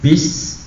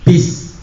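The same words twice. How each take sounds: First: The s sound is thick, not thin. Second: The s sound is thin and light. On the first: The speaker calls it wrong. "bukan bis" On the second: The speaker calls it right. "pakai sin pasti tipis"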